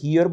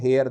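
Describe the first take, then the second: First: The vowel sounds like 'ear', as in hear. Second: The vowel sounds like 'air', as in hair. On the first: The speaker calls it right. "इसको हियर बोलते हैं" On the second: The speaker calls it wrong. "ये गलत pronunciation है"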